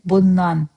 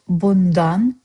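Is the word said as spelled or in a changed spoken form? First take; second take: changed; spelled. First: The word is pronounced in a changed spoken form. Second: The word is pronounced exactly as spelled. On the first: "but I said bundan" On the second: "You wrote bundan"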